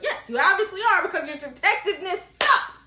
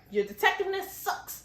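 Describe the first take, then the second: First: Higher, louder mock exasperation; hammed-up scolding that peaks on "sucks"; exasperated. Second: High, unforced jab; mock criticism. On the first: Exasperated repeat of the insult. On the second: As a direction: deliver a teasing verdict without raising the volume. First take of the insult.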